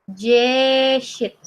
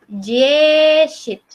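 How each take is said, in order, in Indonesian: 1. Diawali dengan bunyi mirip j lembut. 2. Diawali dengan bunyi mirip j lembut.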